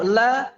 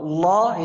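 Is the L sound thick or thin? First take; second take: thin; thick. First: The L sound is light and thin. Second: The L sound is heavy and thick. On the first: "kalau la ini tipis" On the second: "kalau la itu tebal"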